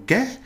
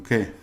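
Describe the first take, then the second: First: "qué" pitched very high and loud; questioning qué. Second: Said in the usual way. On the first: Shown as a demonstration. Teacher showing the wrong qué to avoid, exaggerated question. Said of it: "So I'm not going". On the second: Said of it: "I'm going, ¿qué?".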